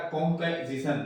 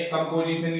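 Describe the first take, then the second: First: कॉम्पोजिशन said as "kom-pe-zisan"; कॉम्पोजिशन with reduced second vowel; weak form. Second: Said in the usual way. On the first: Shown as a demonstration. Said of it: "कंपोजिशन की जगह ये बोलेगा". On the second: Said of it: "की जगह ये बोलेगा".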